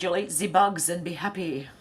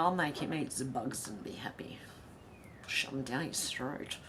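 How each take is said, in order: First: Said in the usual way. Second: Mock menacing whisper. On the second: Host jokingly threatening a chat viewer, in a whisper. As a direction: whisper it like a playful villain.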